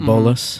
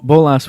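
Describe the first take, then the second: First: It is pronounced the English way. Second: It is pronounced the Spanish way. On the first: "I would say bolas" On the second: "would be like if you're being the Spanish"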